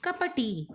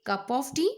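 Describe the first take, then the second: First: "Cup of tea" as "capa tea", swallowed; "Cup of tea" slurred into "apa tea"; "Cup of tea" said wrongly. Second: "cup of tea" as a model for her; "cup of tea" clearly said. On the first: Acted. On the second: Shown as a demonstration. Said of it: "Now say cup of tea".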